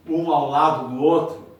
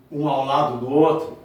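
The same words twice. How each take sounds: The two takes are said the same way.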